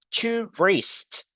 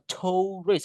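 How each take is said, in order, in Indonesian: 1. Vokal pertama adalah bunyi 'u' biasa. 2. Vokal pertama diucapkan dengan bunyi 'o'. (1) "O-nya kayak gak dibaca gitu. Langsung U aja" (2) "nggak perlu bilang tourist"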